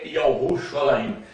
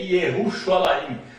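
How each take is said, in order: First: The name begins with a 'ya' sound. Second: The name begins with a 'ye' sound. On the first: This is the archaic Hebrew form of the name. "No hebraico arcaico é" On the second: This is the modern Hebrew form of the name. "o nome de Jerusalém no hebraico moderno é"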